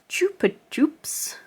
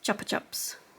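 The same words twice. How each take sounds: First: The name is said the American way. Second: The name is said the British way. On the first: "in America, it is pronounced Chupa Chups" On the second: "whereas in the U K it's Chupa Chups"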